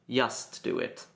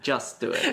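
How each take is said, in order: First: 'Just' begins with a Y sound. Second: 'Just' begins with a J sound. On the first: The speaker calls it wrong. "your J's are Y's. / I tend to say" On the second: The speaker calls it right.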